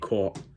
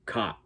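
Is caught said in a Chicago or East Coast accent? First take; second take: East Coast; Chicago. First: It is said in an East Coast accent. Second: It is said in a Chicago accent. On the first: "we say caught"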